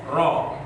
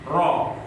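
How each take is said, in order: First: The r is trilled with a light, gentle vibration. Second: The r is trilled with a light, gentle vibration.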